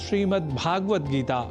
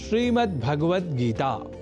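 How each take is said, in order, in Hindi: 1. दूसरा शब्द लंबे स्वर से शुरू होता है। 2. दूसरा शब्द छोटे स्वर से शुरू होता है। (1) "अनवधानतावश हम ... कर जाते हैं" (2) "जैसा कि मैंने उच्चारण किया"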